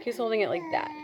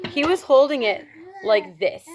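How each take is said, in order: First: Said in the usual way. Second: Overdone, showy retelling of how he held it; exaggerated demo. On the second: Shown as a demonstration. Showing the vlog how he held the box, overdone. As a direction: play it up big, a touch theatrical. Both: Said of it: "Maybe not so dramatic".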